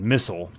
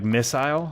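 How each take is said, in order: First: It is said with an American pronunciation. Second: It is said with a British pronunciation. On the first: "U S English" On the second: "the way that British English says it"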